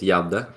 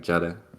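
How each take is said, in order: First: The name is said with Swedish pronunciation. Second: The name is said with English pronunciation. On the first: "the Swedish pronunciation is Jadde" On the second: "I would say in English like Jada. I think that sounds better"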